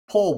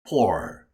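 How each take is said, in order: First: The vowel sounds like the one in 'tour'. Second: The vowel sounds like the one in 'door'.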